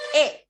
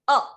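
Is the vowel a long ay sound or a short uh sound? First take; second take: long ay; short uh. First: It is a full, long ay sound. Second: It is a short, weak uh sound. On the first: It is the name of the letter. "when you pronounce the letter A of English alphabet, it is A" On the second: It is the article. "When you pronounce article a, the pronunciation is a"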